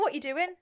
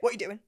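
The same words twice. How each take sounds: First: It is said in a light, friendly tone. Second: It is said in a sharp, angry tone. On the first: The sender is just casually asking. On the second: The sender seems annoyed or upset.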